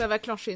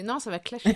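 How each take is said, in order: First: "clencher" with nasal "an" in place of "clasher"; "clencher" said in error, sounded "klan-shay"; wrong word. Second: "clasher" said as "klash", with a plain "a"; "clasher" fixed after the slip, short "klash"; corrected word. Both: Real, not acted.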